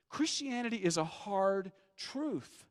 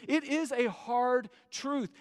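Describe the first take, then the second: First: Said in the usual way. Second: "it is a hard truth" drawn out slowly, each word weighted; slow stress on hard truth. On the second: Shown as a demonstration. Pastor pressing the point to the doubters, slow and weighted. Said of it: "because the truth is".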